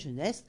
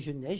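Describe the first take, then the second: First: The name is said with an s sound. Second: The name is said without an s sound. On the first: "En vieux français, Geneste" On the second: "Ou Genet"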